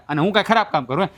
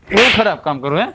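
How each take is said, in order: First: Rushed, stress on ખરાબ, rising at the end; quick challenge. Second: એવું hit hard, rising at the end; stress on એવું. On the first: Husband to wife, quick defiant question stressing ખરાબ. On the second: Husband repeats the challenge to his wife, stressing એવું. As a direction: lean on એવું, demanding an answer. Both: Acted.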